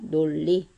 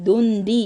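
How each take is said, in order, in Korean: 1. 첫 음절은 l 소리로 끝나요. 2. 첫 음절은 n 소리로 끝나요. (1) "발음할 때는 리을로 바뀌죠" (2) "논리 이렇게 발음하는 애들 있더라. 그렇게 하면 안 된다"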